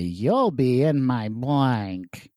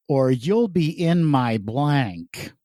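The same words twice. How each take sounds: First: Very slow, arch game-show voice; Charles Nelson Reilly. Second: Slow, arch game-show delivery; milk each word slowly for the joke; Charles Nelson Reilly. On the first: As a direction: stretch it out like a campy panelist. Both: Acted. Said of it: "I tried to deliver it like Charles Nelson Riley".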